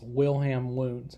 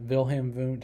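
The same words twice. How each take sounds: First: The names begin with a W sound. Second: The names begin with a V sound. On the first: The speaker calls it wrong. "It looks like it's Wilhelm Wundt" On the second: The speaker calls it right. "the W is pronounced as a V"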